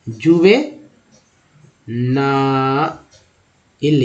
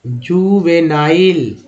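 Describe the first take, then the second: First: juvenile stretched out very slowly, syllable by syllable; slow syllable demo. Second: Said in the usual way. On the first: Shown as a demonstration. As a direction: drag juvenile out for the learners. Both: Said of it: "next है".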